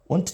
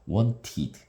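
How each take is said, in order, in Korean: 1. 어미는 그냥 t 소리입니다. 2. 어미는 id 음절이 추가된 것입니다. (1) "뭐 이러면 이상하잖아요" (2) "이드 발음을 합니다"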